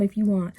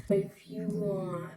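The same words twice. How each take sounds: First: Said in the usual way. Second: Much softer, drawn-out IF YOU WANT; mocking echo. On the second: Echoing dad's half-hearted offer, mocking. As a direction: stretch out "If you want" slowly and quietly.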